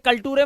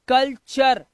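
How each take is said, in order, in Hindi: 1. बीच का व्यंजन सादा 't' ध्वनि है। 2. बीच का व्यंजन 'ch' ध्वनि है।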